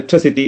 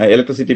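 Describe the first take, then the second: First: The stress falls on the third syllable. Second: The stress is not on the third syllable. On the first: It suits talking with native speakers. "English പറയുമ്പോൾ" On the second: It suits talking with people in the local community. "നമ്മുടെ നിലവിലുള്ള electricity"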